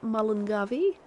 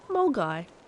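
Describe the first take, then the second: First: The name is sounded out in four syllables. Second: The name is said in two short syllables. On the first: The speaker calls it wrong. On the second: The speaker calls it right.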